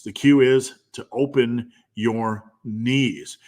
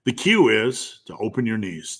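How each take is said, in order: First: Slow, with OPEN, YOUR and KNEES set apart; slow emphatic repeat. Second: Said in the usual way. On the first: Real, not acted. Repeats cue slowly, word by word.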